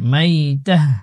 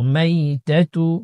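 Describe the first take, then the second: First: The word ends with a soft h sound. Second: The word ends with a full tu syllable. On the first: The reader stops at this word. "ওকফ অবস্থায় গুলতা থাকলে হা উচ্চারণ করতে হয়" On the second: The reading continues without stopping. "তা পেশ তো"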